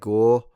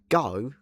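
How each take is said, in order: First: The vowel sounds like a Scottish accent. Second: The vowel glides like a Cockney 'ow' sound. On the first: The speaker calls it wrong. "It almost sounds Scottish at that point" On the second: The speaker calls it right. "if you wanted to say it as a Cockney"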